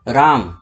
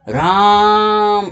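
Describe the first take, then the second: First: The word is said at normal length. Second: The first vowel is drawn out, as in calling.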